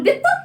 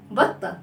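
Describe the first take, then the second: First: "بطة" mispronounced as "bitta", rising in question; wrong first vowel. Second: "بطة" as "batta", low and falling; fatha on ba. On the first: Teacher testing children's wrong answer, "بطة" mispronounced as "bitta". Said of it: "ما بقولش بطة". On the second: Teacher modelling the right word for children, "بطة" as "batta". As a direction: say "بطة" with an open "a" after the b. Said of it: "بالباء فتحة". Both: Shown as a demonstration.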